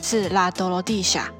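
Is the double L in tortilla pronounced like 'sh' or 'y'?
sh. The double L sounds like 'sh'. This is how it is said in Latin America. "但是拉丁美洲的话可能就会念sha"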